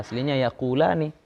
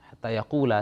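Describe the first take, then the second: First: Yaqulani said in full, ending ni kept; full form. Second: Yaqula said short, the ni dropped after hatta; dropped ending. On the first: Teacher contrasts the original for students, full yaqulani. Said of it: "Sebenarnya hatta yaqulani". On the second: Teacher reads Quran form to students, yaqula clipped. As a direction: say yaqula with no final ni. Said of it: "karena masuk hatta hilang ninya". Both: Shown as a demonstration.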